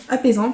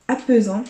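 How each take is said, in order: First: Apaisant said cleanly as "a-pé-zan", clear é in the middle; careful self-correction; quick correction. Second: Apaisant garbled as "a-peu-zant", the middle vowel muddled; fumbled word; tongue-tied slip. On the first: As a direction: fix it: apaisant with a crisp é. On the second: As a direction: trip over apaisant, sliding into "apeuzant". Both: Real, not acted. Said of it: "j'arrive plus à parler".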